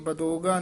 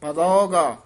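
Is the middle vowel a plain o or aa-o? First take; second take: plain o; aa-o. First: The middle vowel is a plain o. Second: The middle vowel is aa followed by o. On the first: The speaker calls it wrong. "ਨਹੀਂ ਕਹਿਣਾ" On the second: The speaker calls it right. "ਇਉਂ ਬੋਲਣਾ"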